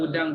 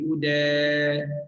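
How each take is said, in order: First: The vowel is said open and plain. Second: The vowel is tilted toward an e sound.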